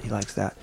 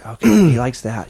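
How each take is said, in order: First: Much softer he likes that; quiet repeat. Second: Louder, excited he likes that; excited relief. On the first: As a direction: say it to yourself under breath. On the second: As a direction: blurt it out relieved. Dog reacts, relieved excited remark. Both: Acted.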